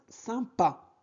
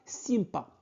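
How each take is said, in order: First: The first vowel is a nasal sound. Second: The first vowel is an oral i sound. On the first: The speaker calls it right. "Y, M se prononce un" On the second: The speaker calls it wrong. "Ne prononcez pas sympa. Non, c'est incorrect"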